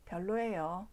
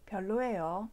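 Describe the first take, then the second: The two takes are said the same way.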